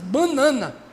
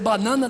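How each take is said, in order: First: The word has an extra doubled n sound. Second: The word has a single plain n sound. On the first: This is how people say it in the speaker's home region. "Tem um N a mais" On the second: This is the usual way to say it. "Ao invés de dizer banana"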